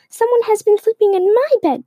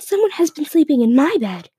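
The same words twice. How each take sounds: First: The voice is little and squeaky. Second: The voice is of medium size. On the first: "Baby Bear squeaked in its little voice" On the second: "Mama Bear exclaimed in her medium-sized voice"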